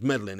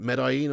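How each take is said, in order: First: "Medellin" with an English L, like MED-uh-lin; anglicised pronunciation. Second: "Medellin" with no L sound, like med-eye-EEN; Spanish-style pronunciation. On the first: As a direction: say "Medellin" as spelt, sounding the double L. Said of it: "It's not pronounced Medellin, is it". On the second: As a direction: say "Medellin" with the double L as a y glide. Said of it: "It's not pronounced Medellin". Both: Shown as a demonstration.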